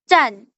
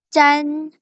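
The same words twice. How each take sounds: First: The pitch falls sharply from high to low. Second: The pitch stays high and level.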